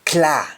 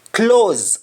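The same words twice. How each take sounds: First: "cla" said KLAH; "cla" with open ah, no z; Jamaican ah form. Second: "Claws" with rounded aw; "Claws" as KLAWZ; English aw form. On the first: Teacher answering in Jamaican, "cla" as klah. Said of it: "we say double A H". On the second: Teacher giving the English word, "Claws" with round aw. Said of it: "Instead of A W or A U". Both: Shown as a demonstration.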